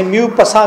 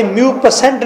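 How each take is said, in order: First: म्यूपसा said myoo-pa-sa, ending on a plain -sa; म्यूपसा in the French way, the final t silent; correct pronunciation. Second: म्यूपसेंट read as myoo-pa-sent, with the -sent ending sounded; म्यूपसेंट pronounced as it is spelt, ending in -sent; wrong pronunciation. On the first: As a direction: say म्यूपसा with no n or t at the end. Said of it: "इसे म्यूपसा कहना है". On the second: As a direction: say म्यूपसेंट with a spoken nt at the end, the wrong way. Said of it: "ये म्यूपसेंट नहीं पढ़ना". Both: Shown as a demonstration.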